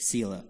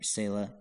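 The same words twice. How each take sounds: First: First syllable of Selah said "see"; Selah as SEE-lah. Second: First syllable of Selah said "say"; Selah as SAY-lah. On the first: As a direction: say Selah with a long EE. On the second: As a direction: say Selah with a long AY. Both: Shown as a demonstration. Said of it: "however you want to say it".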